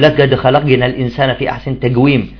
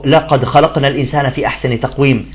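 First: The qaf is said as a g sound. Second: The qaf is said as a q sound. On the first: The speaker calls it wrong. "بعضهم القاف في اليمن يقرأها جي" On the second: The speaker calls it right. "قال تعالى"

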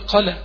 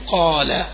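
First: The long vowel is clipped shorter than normal. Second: The long vowel is held for one normal length. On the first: The speaker calls it wrong. "ولا يجي ينقص" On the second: The speaker calls it right. "كمد ألف"

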